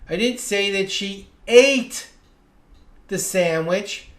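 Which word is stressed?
ate. The stress falls on the word ate. She did something else with the sandwich. "Maybe she juggled it or gave it to someone else"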